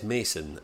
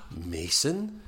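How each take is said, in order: First: Said in the usual way. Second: Gasped, questioning name with a rise; mock surprised recognition. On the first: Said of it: "he says Mason". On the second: Podcaster voicing the woman recognising him, mock surprised question. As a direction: act out sudden recognition, lightly.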